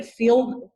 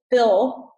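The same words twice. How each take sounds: First: "feel" for fill, Texas vowel; Texas accent. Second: Said in the usual way. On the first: Real, not acted. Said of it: "that's my Texas accent coming out". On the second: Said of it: "sorry, that's my Texas accent coming out".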